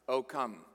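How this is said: It is said flatly, in a mundane way. The speaker calls it wrong. "you can't even say that in a mundane way. You can't be like"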